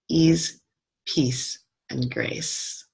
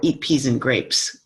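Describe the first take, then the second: First: The phrase is said slowly with separate words. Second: The phrase is run together very quickly.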